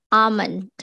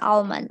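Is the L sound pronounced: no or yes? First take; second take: no; yes. First: The L sound is silent. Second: The L sound is pronounced. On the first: The speaker calls it right. "L-nya tidak dibaca gitu" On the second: The speaker calls it wrong. "in English we also read it as almond"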